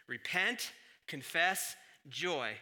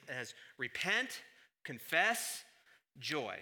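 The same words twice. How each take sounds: First: Repent and confess rising, joy falling; emphatic list; repeated list. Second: Each word set apart, rising on repent and confess; a deliberate three-step list; spelled-out order. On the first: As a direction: tick off the three steps. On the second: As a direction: list them slowly: repent, confess, joy. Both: Shown as a demonstration. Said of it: "I conceive it as".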